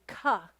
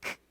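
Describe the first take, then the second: First: The k is followed by an added uh vowel. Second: The k is said alone without a vowel. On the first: The speaker calls it wrong. "which really emphasizes an uh sound" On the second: The speaker calls it right. "try to isolate it with me"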